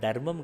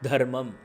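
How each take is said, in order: First: The first consonant is unaspirated, without a breath puff. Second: The first consonant is aspirated, with a breath puff. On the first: The speaker calls it wrong. "தர்மம் கிடையாது" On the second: The speaker calls it right. "அழுத்தமா த அப்படின்னு சொன்னா நாலாவது"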